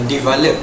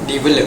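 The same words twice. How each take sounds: First: The vowels are long, with an open 'ah' sound. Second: The vowels are short, with a short 'e' sound. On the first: "In Malay accent, it is pronounced as uh" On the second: "while in British accent, it is pronounced as"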